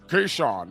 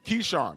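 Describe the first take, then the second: First: It is said imitating Rick Glasser's voice. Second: It is said in the speaker's normal voice.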